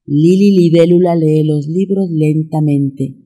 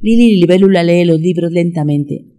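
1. Se dice a un ritmo moderado. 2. Se dice a un ritmo muy rápido. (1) "Ahora vamos a meterle un poquito de velocidad" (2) "Más rápido"

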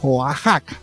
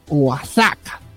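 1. El nombre se dice al estilo mexicano. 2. El nombre se dice como Osaka, leyendo la x. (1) "si vos decís que es Oaxaca, es Oaxaca" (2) "yo lo leí como si fuera Osaka"

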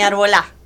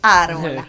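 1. La sílaba tónica es la última. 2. La sílaba tónica es la primera. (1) "ni arbolá" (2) "es árbola. Árbola es como árbol pero con A"

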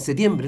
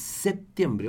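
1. La palabra se dice rápido y cortada. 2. La palabra se dice completa y con cuidado. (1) "algunos rápidamente dicen septiembre" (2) "no, es septiembre, ojo"

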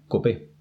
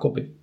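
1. El acento está en la última sílaba. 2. El acento está en la primera sílaba. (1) "con tilde en la E" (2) "yo la llamaba Cope, que es lo que estoy acostumbrado a escuchar"

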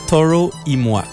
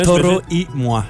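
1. Il est prononcé sans accent espagnol. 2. Il est prononcé avec un accent espagnol. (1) "c'est pas super" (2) "faut y aller avec un accent espagnol"

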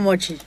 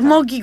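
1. La consonante del medio es un sonido ch. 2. La consonante del medio es un sonido k. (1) "pero yo me digo Mochi" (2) "Mochi es Moki correctamente"

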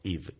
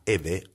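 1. El nombre se pronuncia con sonidos ingleses. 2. El nombre se pronuncia con sonidos españoles.

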